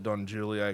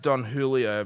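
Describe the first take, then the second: First: The name is said with an Australian pronunciation. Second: The name is said with its standard pronunciation. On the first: This is how the name is casually said locally. "I just call it Don Julio because we're in Australia" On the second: This is how the name is properly pronounced. "it's pronounced Don Julio"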